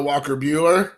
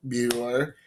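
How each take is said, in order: First: Said in the usual way. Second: Buehler repeated lower and softer with a rising end; saying Buehler once more to oneself, lower and softer; repeating the name. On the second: Shown as a demonstration. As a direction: softly sound out Buehler again, lower, ending on a rise.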